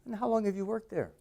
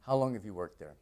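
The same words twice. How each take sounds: First: "And how long have you worked there?" pitched higher, staying up; curious, waiting for the answer; interested tone. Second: "How long have you worked there?" flat and dropping at the end; bored falling tune. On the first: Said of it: "I sound much more interested". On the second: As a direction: ask as if you don't care. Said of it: "I don't sound very interested". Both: Shown as a demonstration.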